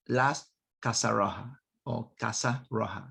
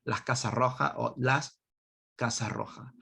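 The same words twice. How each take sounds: First: Spanish words in an English accent. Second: "Casa Roja" in a Spanish accent; Spanish-accented pronunciation. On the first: Real, not acted. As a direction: say "Casa Roja" with English-accented sounds. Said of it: "said that with an English accent". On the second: Shown as a demonstration. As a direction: redo "Casa Roja" with Spanish sounds instead of English. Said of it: "I don't know why I said that with an English accent".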